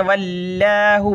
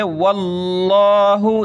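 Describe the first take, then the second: First: "वल्लाहु" with a light L and open, unrounded aa; thin Allah. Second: "वल्लाहु" with a thick, rounded dark L; heavy Allah. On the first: Teacher copying a common mistake, "वल्लाहु" with a thin L. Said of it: "इसको बहुत सारे पढ़ते हैं". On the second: Teacher showing the thick reading, "वल्लाहु" heavy and rounded. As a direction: draw out "वल्लाहु" with a full, aw-like vowel. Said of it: "तो यहाँ मोटा होगा". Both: Shown as a demonstration.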